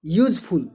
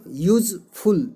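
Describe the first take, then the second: First: Said in the usual way. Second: यूजफुल split as यूज, pause, फुल; यूजफुल broken in two for learners; syllable by syllable. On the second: Shown as a demonstration. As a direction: say यूजफुल slowly in two separate beats. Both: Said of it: "ये दो syllable का शब्द है".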